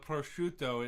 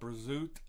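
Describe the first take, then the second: First: The word ends with its final vowel pronounced. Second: The word ends on a consonant, final vowel dropped.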